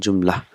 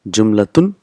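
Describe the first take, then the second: First: The word ends on "-la" with the ending dropped. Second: The word ends with a full "-tun" ending.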